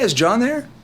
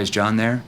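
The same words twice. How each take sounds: First: The voice is casual and familiar. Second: The voice is flat and monotone. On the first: The caller sounds like someone they know. The speaker calls it right. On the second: The caller sounds like a salesperson. The speaker calls it wrong.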